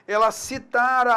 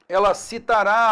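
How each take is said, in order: First: Citará said as citara, stressed on TA; stress on middle syllable. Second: Citará stressed on the final RÁ; stress on last syllable. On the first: Teacher shows the pluperfect, citará stressed on the middle TA. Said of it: "pretérito mais que perfeito". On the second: Teacher shows the future tense, citará stressed on its final á. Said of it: "futuro do presente". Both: Shown as a demonstration.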